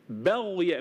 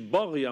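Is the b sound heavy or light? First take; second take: light; heavy. First: The b sound is light and thin. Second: The b sound is heavy and thickened. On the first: The speaker calls it right. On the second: The speaker calls it wrong.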